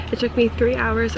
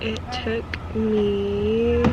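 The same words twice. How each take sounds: First: Said in the usual way. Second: Slow, trailing off while checking; drawn out, unsure; hesitant, slow. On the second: Real, not acted. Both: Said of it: "let me look at my phone".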